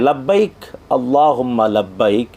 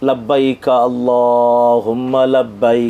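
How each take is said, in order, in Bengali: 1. প্রথম শব্দের পরে একটি বিরতি আছে। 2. প্রথম শব্দটি পরের শব্দের সাথে মিশে যায়। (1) "লাব্বাইক বলে থেমে" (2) "যদি মিলিয়ে পড়ে"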